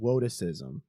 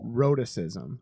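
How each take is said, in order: First: The first sound is said like a w. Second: The first sound is said as a clear r.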